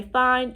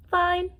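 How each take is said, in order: First: Said in the usual way. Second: High-pitched demonstration answer; sample reply. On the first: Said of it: "wanted to say". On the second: Shown as a demonstration. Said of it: "you just go".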